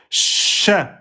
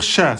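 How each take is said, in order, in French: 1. La consonne est appuyée et tenue plus longtemps. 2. La consonne est courte, pas tenue. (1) "C'est Ch" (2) "On peut pas dire Ch"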